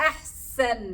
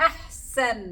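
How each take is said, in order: The two takes are said the same way.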